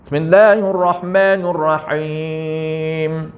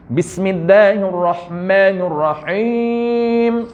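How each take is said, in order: First: Bismillahirrahmanirrahim chanted slowly with the ba swallowed; dropped letter ba. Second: Bismillahirrahmanirrahim slow, with a crisp clear b at the start. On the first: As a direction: recite Bismillahirrahmanirrahim, skip the ba sound. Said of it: "tu dia tinggal huruf ba". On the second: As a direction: recite Bismillahirrahmanirrahim giving the b full clarity. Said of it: "Sepatutnya B kena jelas". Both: Shown as a demonstration.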